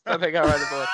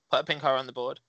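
First: A mock shout on the third go, louder each time; excited shout. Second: Said in the usual way. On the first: Shown as a demonstration. Acting out the soundboard joke for friends with a mock shout. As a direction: belt the punchline of the gag.

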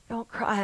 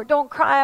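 First: Softly voiced comforting Jesus; hushed, assured comfort to a mourner; quiet reassurance. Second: Imitating an awkward would-be comforter; hurried plea from someone who can't fix it; helpless comforting. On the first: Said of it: "I think he was saying". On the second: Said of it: "I want to fix it, but I can't".

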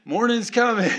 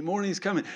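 First: "Morning's coming" pushed out louder with a laugh; laughing insistence. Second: Said in the usual way. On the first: Real, not acted. Pastor assuring the congregation, laughing and louder. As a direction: laugh through it as you insist. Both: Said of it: "still standing here trying to tell you".

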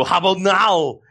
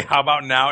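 First: Higher, thick mock Austrian accent; hammed-up Austrian action-star punchline; Arnold Schwarzenegger. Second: Said in the usual way. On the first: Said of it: "in an Arnold Schwarzenegger voice".

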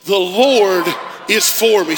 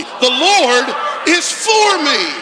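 First: Said in the usual way. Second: Loud, slow shouted declaration; bold declaration. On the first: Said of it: "Come on, say it". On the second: Shown as a demonstration. Pastor leading the congregation, shouting it boldly. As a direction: declare it from the belly. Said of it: "Say it again like you mean it. Boldly".

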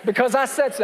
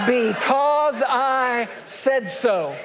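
First: Said in the usual way. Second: Slow, drawn-out parental shout; fed-up parent ending the argument; stern parent. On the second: Acted. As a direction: lay down the law like a fed-up parent. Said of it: "What is the answer to "but why".

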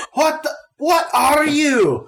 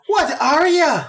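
First: Put-on high, loud, slow halfling sputter in a botched Scottish accent; a garbled Scottish-accented shriek of shock; halfling caught off guard, sputtering in a Scottish accent; bad Scottish accent. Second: Put-on Irish accent retry. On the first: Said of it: "terrible Scottish accent instead of Irish". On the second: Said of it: "instead of Irish".

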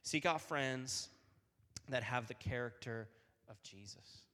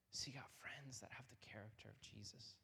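First: Said in the usual way. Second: Soft unvoiced whisper. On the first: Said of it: "repeated line, second whispered". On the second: Shown as a demonstration. Youth speaker repeats the lesson to listeners in a whisper. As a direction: let it sink in as a hushed whisper. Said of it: "repeated line, now whispered".

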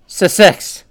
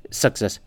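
First: "success" said as suh-SEX, for Sussex; corrected attempt. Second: "success" ending in a plain -ess, quieter and lower; mispronounced attempt. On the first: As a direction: hit "success" higher, ending in a crisp -ex. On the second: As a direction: say "success" low, like a failed try at Sussex. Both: Real, not acted. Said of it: "I can't say this British".

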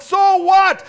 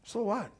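First: A huge high yell on so what; so what, shouted out. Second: Soft, shrugging so what; so what, said softly; quiet so what. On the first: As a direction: fling so what at the crowd. Shouted climax of the sermon. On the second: Quiet repeat after pause. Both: Acted.

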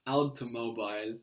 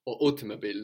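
First: "Automobile" said the Italian way as "ow-to-MO-bee-leh"; Italian pronunciation. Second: "automobile" said the English way as "AW-tuh-muh-beel"; English pronunciation. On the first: Teacher says the Italian word "Automobile" for the student. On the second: Teacher gives the English word "automobile" after the Italian one. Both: Shown as a demonstration. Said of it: "no, in English".

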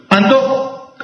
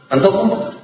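First: Antojo. stated as a settled answer; firm answer. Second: ¿Antojo? asked with a rising tune; puzzled question. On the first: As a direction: confirm Antojo. as if answering your own question. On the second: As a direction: echo ¿Antojo? as a curious question to the class. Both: Shown as a demonstration.

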